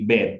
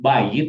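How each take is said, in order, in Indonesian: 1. Kata ini dipendekkan jadi satu suku kata. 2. Kata ini punya dua suku kata, ba-yit. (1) "menjadi bait" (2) "Instead of bayit"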